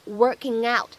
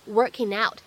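First: Working ends in ng, linked into out. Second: Working ends in n, linked into out. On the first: "你既可以用后鼻音去连读一下" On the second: "你也可以偷懒使用前鼻音去连读一下"

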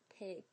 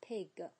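First: The final g is released lightly and softly. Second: The final g is released with strong force. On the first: The speaker calls it right. "我们一定要轻一点" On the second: The speaker calls it wrong. "千万不要发成了pig， g 是错的"

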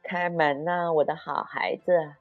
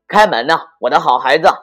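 First: It is said in a thin, high voice. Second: It is said in a rough, hoarse voice.

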